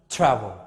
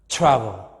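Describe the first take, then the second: Both takes have the same delivery.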